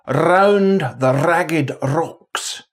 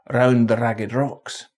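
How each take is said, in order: First: The R sounds are rolled as a trill. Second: The R sounds are a single quick tap. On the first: It is said with special emphasis. "The Scots R can be a trill" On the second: It is the ordinary everyday way. "Most of the time it is a tap"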